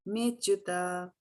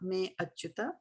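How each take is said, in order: First: The two words merge, and the vowel is dropped. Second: The two words are separate, with the vowel kept. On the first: The speaker calls it right. "it's not to be pronounced" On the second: The speaker calls it wrong. "Not Me Achyuta"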